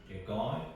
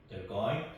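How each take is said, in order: The two takes are said the same way.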